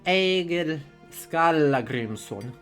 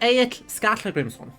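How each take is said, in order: First: The first name sounds like two-syllable 'Egil'. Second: The first name sounds like one-syllable 'Aik'. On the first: The speaker calls it wrong. "reconstructed pronunciation" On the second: The speaker calls it right. "Modern pronunciation is better"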